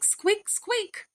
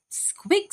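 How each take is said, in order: First: Very high mouse voice, two quick squeaks; small mouse. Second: Very high squeaky mouse voice with a rising squeak; a tiny mouse squeaking up at the end; small mouse. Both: A narrator's reading.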